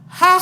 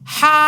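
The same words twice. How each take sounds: First: The sound is short and quick. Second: The sound is drawn out long. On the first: The speaker calls it right. "Cara bacanya bagaimana?" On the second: The speaker calls it wrong. "tidak boleh dilama-lamain ... nah itu salah"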